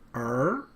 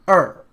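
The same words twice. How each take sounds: First: The pitch rises from low to high. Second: The pitch falls from high to low. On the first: It means son. "your tone is going up. Okay, you can also think of it as the rising tone" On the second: It means two. "you start with a higher pitch and you go down to a lower pitch"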